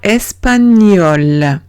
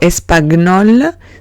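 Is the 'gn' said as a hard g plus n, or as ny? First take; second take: ny; hard g. First: The gn is one ny sound. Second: The g and n are sounded separately. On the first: The speaker calls it right. "Como si tuviese una ñ en vez de la G-N" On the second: The speaker calls it wrong. "No digo espagnol"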